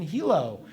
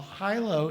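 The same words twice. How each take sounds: First: "Hilo" pronounced HEE-loh; Hilo as HEE-low. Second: "Hilo" pronounced HIGH-loh; Hilo as HIGH-low. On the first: Author names the Hawaiian city, "Hilo" said HEE-loh. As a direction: say "Hilo" with a first syllable like "he". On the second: Author names his book signing, "Hilo" said HIGH-loh. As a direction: say "Hilo" with a first syllable like "high". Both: Real, not acted. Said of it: "So is it pronounced Hilo or Hilo?".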